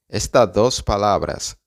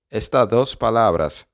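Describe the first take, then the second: No difference in how they are said.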